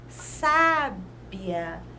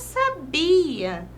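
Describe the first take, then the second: First: The stress is on the first syllable. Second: The stress is not on the first syllable. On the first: It describes someone as wise. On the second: It is a verb form meaning knew.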